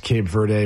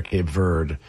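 First: "Verde" ending in an "ay" sound, VER-day; two-syllable Verde. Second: "Verde" cut to one syllable, VERD. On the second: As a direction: say "Verde" as VERD, silent final e. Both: Shown as a demonstration. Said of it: "it's pronounced both ways".

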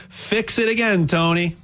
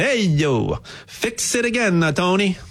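First: Said in the usual way. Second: Hammed-up Italian accent, pitch jumping up on fix it again; playful Italian accent, tossed off like a joke. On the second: Shown as a demonstration. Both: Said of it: "I'll say it with an Italian accent".

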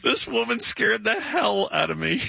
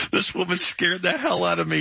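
First: High, slow mock-shocked quote; drawn-out retelling. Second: Higher-pitched quote of the punchline; amused retelling. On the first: Host repeating doorman's punchline to the crew, drawn out. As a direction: stretch the punchline out, landing on "hell". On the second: Retold or imitated. Host quoting doorman's story to co-host, amused retelling. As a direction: retell it, tickled and incredulous.

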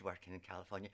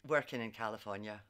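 First: Weary dread. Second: Said in the usual way. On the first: Real, not acted. Recalling her California job, with mock dread. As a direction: drop it low like a heavy sigh.

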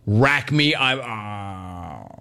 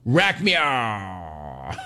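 First: Slurring as he passes out; going under anesthesia. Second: Going under anesthesia. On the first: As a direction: voice trailing off into sleep. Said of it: "jokes with the anesthesiologist". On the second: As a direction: drop off mid-word. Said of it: "Count to ten". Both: Pretend.

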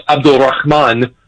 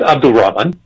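First: "Abdul Rahman" said carefully in the Arabic way; Arabic pronunciation. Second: "Abdul Rahman" in an easy Americanized way; American pronunciation. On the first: Host mocking a paper's lecture on the name, Arabic pronunciation of "Abdul Rahman". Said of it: "how to actually produce". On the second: Host refusing to mimic the Arabic, American pronunciation of "Abdul Rahman". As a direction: say "Abdul Rahman" without any Arabic sounds. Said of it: "not here to mimic the Arabic". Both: Shown as a demonstration.

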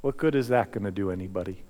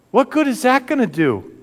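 First: Much softer, lower, quicker; hushed question. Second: High, pressing disbelief; incredulous outcry. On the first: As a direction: ask it quietly at the cross. Same question, now hushed reflection. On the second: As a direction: throw the question out to the crowd. Preacher repeats question, then soft. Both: Acted.

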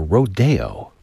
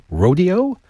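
First: "rodeo" as roh-DAY-oh, stress on DAY; alternative pronunciation. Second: "rodeo" stressed on the first syllable, ROH-dee-oh, rising; everyday pronunciation. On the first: Host offering listeners the other option, "rodeo" as roh-DAY-oh. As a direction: say "rodeo" slowly as roh-DAY-oh, falling at the end. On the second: Host asking listeners which they say, everyday "rodeo" as ROH-dee-oh. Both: Shown as a demonstration. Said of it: "pronounce things correctly".

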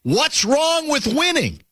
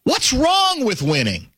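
First: High, drawn-out mock bellow; slow, high-pitched quoted challenge; retold bellow. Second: High, slow swooping challenge; drawn-out, high-pitched quote without shouting; retold bellow, inflected. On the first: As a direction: bellow it slowly like a courtside challenge, without real volume. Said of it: "He bellowed this to me". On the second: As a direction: stretch out WRONG in a mock bellow. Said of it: "let me do the inflection better".

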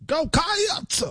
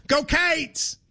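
First: "Cats" said as two syllables "kai-ats", raised pitch; extra syllable. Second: "Cates" said as one syllable, "kates", raised pitch; Kentucky "Go Cates". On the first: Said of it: "You're adding a syllable". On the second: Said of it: "in Kentucky would go". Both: Shown as a demonstration.

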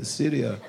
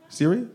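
First: "Syria" low-key, falling, with a solemn tone; mock serious. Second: Said in the usual way. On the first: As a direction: imitate a grave answer: "Syria", dropping at the end. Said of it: "don't be all serious. He's like".

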